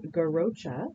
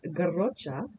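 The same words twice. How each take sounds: First: It is said with an American English pronunciation. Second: It is said with a Catalan pronunciation. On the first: "at the cheese counter in the United States, you can just ask for it as garrocha" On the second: "It comes from Catalonian Spanish, and the pronunciation is garrocha"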